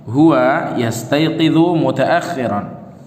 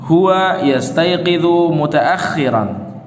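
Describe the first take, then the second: Both takes have the same delivery.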